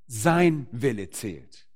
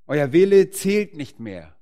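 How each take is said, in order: First: "Sein" drawn out slowly, falling to a settled close; stress on Sein. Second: "Wille" hit loud and slow, rest falling; stress on Wille. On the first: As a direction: put the weight on "Sein", very slow and firm. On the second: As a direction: lean hard on "Wille", sentence slow and loud. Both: Acted. Contrasting your will with his.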